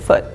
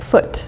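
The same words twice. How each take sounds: First: The final T is cut off. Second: The final T is clearly released. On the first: This is the usual everyday pronunciation. "we usually just kind of chop off the T and it's like foot" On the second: This is a careful pronunciation. "We don't say like foot. Maybe if you're being very careful you would"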